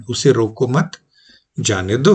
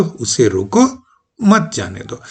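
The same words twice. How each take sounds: First: "रोको मत" together, pause, "जाने दो"; rising "मत", short stop, then "जाने दो"; pause after मत. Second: "उसे रोको", pause, "मत जाने दो"; rising "रोको", short stop, then "मत जाने दो"; pause before मत. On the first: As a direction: break after "मत" so it negates "रोको". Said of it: "अब ये जो अर्थ बदल रहा है". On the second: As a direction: break after "रोको", joining "मत" to "जाने दो". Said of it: "पंक्चुएशन की वजह से बदल रहा है". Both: Shown as a demonstration.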